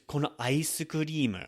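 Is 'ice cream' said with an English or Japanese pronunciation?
Japanese. Ice cream is said with Japanese pronunciation. The speaker calls it right.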